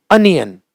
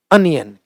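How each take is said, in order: Both takes have the same delivery.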